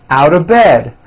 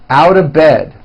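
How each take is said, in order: No difference in how they are said.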